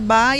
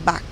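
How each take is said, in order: First: The name is said the Brazilian way. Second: The name is said the foreign way. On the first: This is the pronunciation adopted locally. "aqui nós adotamos a pronúncia Bach" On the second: This is how people abroad say it. "Lá fora eles falam Bach, porque é B A C H, né, como músico"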